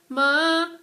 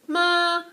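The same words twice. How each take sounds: First: It is said with Mandarin's second tone. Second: It is said with Mandarin's first tone.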